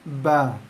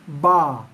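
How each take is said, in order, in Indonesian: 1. Vokalnya sempit, mulut sedikit terbuka. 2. Vokalnya lebar, mulut terbuka lebar. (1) "dibaca dengan mulut buka kecil aja" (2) "bukan dibaca dengan luas"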